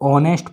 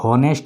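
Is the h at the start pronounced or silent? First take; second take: silent; pronounced. First: The word begins with a vowel, no h. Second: The word begins with an h sound. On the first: The speaker calls it right. "आप लोग अगर इसे पढ़ोगे तो ऑनेस्ट पढ़ोगे" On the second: The speaker calls it wrong. "हॉनेस्ट नहीं पढ़ोगे"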